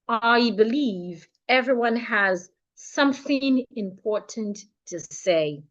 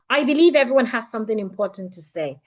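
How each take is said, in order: First: It is spoken much more slowly than usual. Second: It is spoken much faster than usual. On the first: "let's say it fifty percent slower" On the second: "let's do it fifty percent faster"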